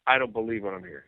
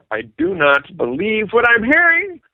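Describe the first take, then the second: First: Understated, softer retold reaction; stunned disbelief. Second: Slow, higher, spacing out "I do not believe"; emphatic disbelief. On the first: Singer alone at his answering machine, quiet disbelief. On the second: Retold or imitated. Singer to himself after missing Ed's call, exasperated "do not believe". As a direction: stretch each word of "do not believe", voice climbing. Same reaction repeated, now emphatic.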